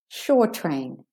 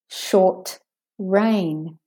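First: The t runs smoothly into the next syllable. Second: There is a brief stop after the t. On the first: It is a train that goes to the shore. "Meaning the train that goes to the shore" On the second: It is rain that lasts a short time. "there's a stoppage on the t. A bit of a pause"

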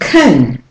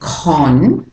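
First: The syllable has a reduced schwa vowel. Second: The syllable has a full o vowel. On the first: The speaker calls it right. "It's saying kun" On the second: The speaker calls it wrong. "it's not saying con unless you're doing a South African accent"

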